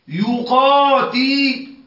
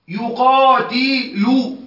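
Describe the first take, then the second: No difference in how they are said.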